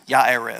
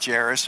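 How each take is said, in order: First: The name begins with a Y sound. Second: The name begins with a J sound. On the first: It is the name's actual original pronunciation. "pronunciation would be Ya Yairus. since there's no pronuncia- pronunciation of J there" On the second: It is read the way the spelling looks. "It looks like Jairus"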